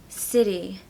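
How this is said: The middle T sounds like a D. "in the American accent, the T is more like a D"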